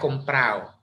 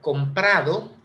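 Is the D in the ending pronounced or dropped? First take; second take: dropped; pronounced. First: The D in the ending is dropped. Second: The D in the ending is pronounced.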